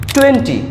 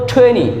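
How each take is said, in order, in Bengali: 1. N-এর পরের T উচ্চারিত হয়। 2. N-এর পরের T বাদ যায়। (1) "যেটাকে আমরা বিশ বলে জানি" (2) "এটাকে বলা হবে টোয়েনি"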